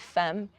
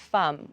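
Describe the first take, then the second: First: The vowel sounds like an 'e'. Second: The vowel sounds like an 'a'. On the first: The speaker calls it wrong. "we don't say femme" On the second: The speaker calls it right. "which you would write with an A"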